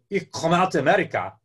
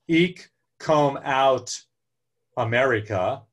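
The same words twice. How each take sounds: First: It is said with a Dutch-sounding accent. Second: It is said with an American accent. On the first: The speaker calls it right. "or that's a little German" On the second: The speaker calls it wrong. "that doesn't have a very Dutch sound to it"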